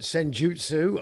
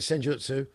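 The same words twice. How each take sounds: First: The word is drawn out and takes longer. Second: The word is said quickly and compactly. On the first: "it just takes slightly longer to say" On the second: "I call it senjutsu"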